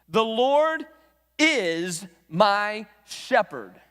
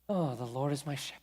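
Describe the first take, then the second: First: It is said as a firm, direct statement. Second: It is said in a casual, offhand way.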